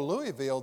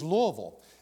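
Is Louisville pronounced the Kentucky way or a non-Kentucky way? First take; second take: non-Kentucky; Kentucky. First: It is said in another non-Kentucky way. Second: It is said in the local Kentucky way. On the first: The speaker is not from Kentucky. The speaker calls it wrong. "they are not speaking Kentucky dialect" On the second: The speaker is from Kentucky. The speaker calls it right. "If you're from Kentucky, it is Louisville"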